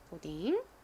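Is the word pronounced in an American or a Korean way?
Korean. It is said with Korean-style syllables and sounds. "한국식으로는 보통 보딩 이런 식으로 표기합니다"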